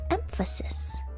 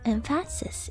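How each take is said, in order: First: The middle vowel is reduced and weak. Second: The middle vowel is pronounced fully. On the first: "because the fa is not stressed, it gets reduced" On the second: "if you were to um, pronounce every sound"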